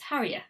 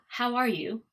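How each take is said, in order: First: The words run together with 'you' reduced. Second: Each word is said fully and separately. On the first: "how it actually sounds" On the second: "what it looks like and what you would see written"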